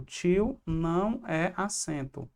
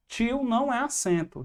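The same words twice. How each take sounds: First: Tio não é acento said slowly and softly; slow, soft repeat. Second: Não punched high; emphatic repeat. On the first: Teacher repeating the rule to students, slow and soft. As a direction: let the rule sink in, slowly. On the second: Teacher drilling the rule to students, punching não. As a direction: stress the não in Tio não é acento. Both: Shown as a demonstration.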